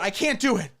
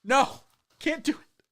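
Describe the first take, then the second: First: Said in the usual way. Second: Higher, put-on mock Chinese accent; "can't do it" in a higher mock Chinese accent. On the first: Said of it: "No, I can't do it". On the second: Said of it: "Try doing the stream with a Chinese accent".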